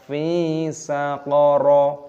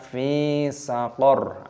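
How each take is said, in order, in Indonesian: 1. Frasa ini diakhiri dengan vokal tambahan. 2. Frasa ini diakhiri konsonan r. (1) "jangan dibaca fi saqara" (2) "harus dimatikan, disukun, dibaca fi saqar"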